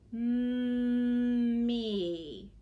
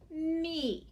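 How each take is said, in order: First: The word is said slowly and stretched out. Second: The word is said at a normal pace. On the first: "Now say it slowly" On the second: "say the word first"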